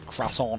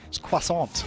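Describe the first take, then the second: First: It is said with a plain English pronunciation. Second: It is said with a French pronunciation. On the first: "I don't say croissant or whatever you guys say over here" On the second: "It's got a bit of elegance to it"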